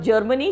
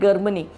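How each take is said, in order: First: It begins with a soft j sound. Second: It begins with a hard g sound. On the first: The speaker calls it right. "Instead of Germany" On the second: The speaker calls it wrong. "G is G as in goat"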